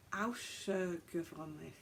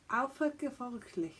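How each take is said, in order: First: "außergewöhnlich" with a hissed S after "au". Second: "Alpha" said with an F sound. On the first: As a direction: read the ß in "außergewöhnlich" as S, slowly. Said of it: "it's a s sound". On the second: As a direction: read the German letter as F in "Alpha". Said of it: "I think it's an F sound". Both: Shown as a demonstration.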